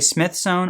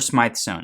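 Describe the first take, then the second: First: The first word has a short i vowel. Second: The first word has a long i vowel. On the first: "I had somebody very rudely tell me that I was pronouncing it wrong" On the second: "I kind of feel like a diva every time I say Smythe sewn"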